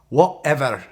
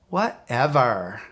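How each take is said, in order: First: It is said in a Scottish accent. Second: It is said in a valley girl voice. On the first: "let me say it in a Scottish accent" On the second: "Let's say it like a valley girl"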